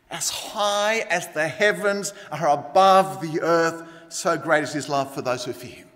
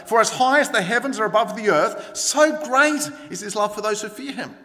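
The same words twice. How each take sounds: First: Drawn-out, solemn scripture; slow, grand quote. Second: Higher, emphatic preaching; building, fervent declaration; fervent scripture quote. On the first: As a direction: quote it slowly, savouring the distance. Verse repeated as the grand answer. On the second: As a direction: proclaim the verse with lifted energy. Verse first quoted with rising fervour. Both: A narrator's reading.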